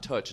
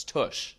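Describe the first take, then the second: First: "Tuch" ending in a "tch" sound; "Tuch" with a hard ch at the end; mispronounced name. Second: "Tush" ending in a soft "sh"; "Tush" finished on a hushing sh; corrected name. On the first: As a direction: say "Tuch" to rhyme with "touch" or "butch". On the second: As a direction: say "Tush" with sh, no t before it. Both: Retold or imitated. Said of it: "it's not Tuch, it's Tush".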